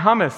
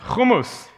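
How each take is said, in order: First: It begins with a soft breathy h sound. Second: It begins with a raspy throat sound. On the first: The speaker calls it wrong. "It is not hummus" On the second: The speaker calls it right. "Got to spit just a little"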